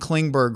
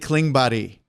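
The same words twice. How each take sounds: First: The name is said with English sounds. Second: The name is said with Swedish sounds. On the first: The speaker calls it wrong. "the Dallas Stars fans have been saying John Klingberg" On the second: The speaker calls it right. "it's really Klingberg"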